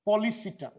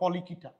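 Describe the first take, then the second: First: The third syllable starts with an s sound. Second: The third syllable starts with a k sound.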